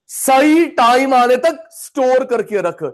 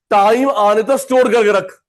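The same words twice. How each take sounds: First: सही time stressed, the whole line slowed right down; slow emphatic repeat. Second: Said in the usual way. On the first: Shown as a demonstration. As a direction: drive the point home slowly for the class. (ज़ोर देकर, धीरे-धीरे दोहराते हुए)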